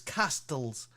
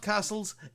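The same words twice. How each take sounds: First: The t in the middle is clearly sounded. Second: The t in the middle is silent. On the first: The speaker calls it right. "There's a T in there" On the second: The speaker calls it wrong. "It's not castles"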